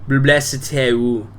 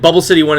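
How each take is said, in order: First: It is said with a French accent. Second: It is said with a plain English accent. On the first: "that was definitely French" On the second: "is the incorrect pronunciation"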